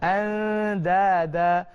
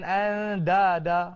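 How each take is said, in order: First: The d is soft and light. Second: The d is hard, like a Malay d. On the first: The speaker calls it right. "Tapi dia bunyi agak lembut" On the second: The speaker calls it wrong. "bukan andada"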